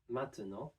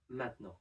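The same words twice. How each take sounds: First: The middle vowel is pronounced. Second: The middle vowel is dropped. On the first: "contains one E sound right in the middle" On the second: "that we can drop and pronounce"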